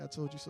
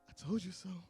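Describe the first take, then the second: First: It sounds gloating and spiteful. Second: It sounds warm and inviting.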